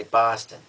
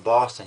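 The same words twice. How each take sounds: First: "Boston" with a broad Boston first vowel; Boston accent. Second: Said in the usual way. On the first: Shown as a demonstration. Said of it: "more of a Boston accent". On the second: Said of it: "you say Boston".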